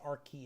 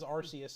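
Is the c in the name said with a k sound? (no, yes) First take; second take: yes; no. First: The c is said with a k sound. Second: The c is not said with a k sound. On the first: The speaker calls it right. "yeah, it's Arceus" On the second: The speaker calls it wrong. "I always thought it was Arceus"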